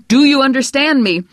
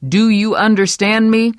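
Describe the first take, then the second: First: Much louder, higher shout; furious repeat. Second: Louder, higher demand; stern demand. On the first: Husband yelling the question again over her prayer. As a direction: yell the question a second time. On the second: Husband demanding Vera understand him, stern. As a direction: press her for an answer. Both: Acted. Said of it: "repeated louder".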